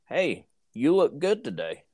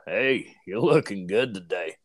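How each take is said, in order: First: It sounds warm and friendly. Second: It sounds smug and pompous.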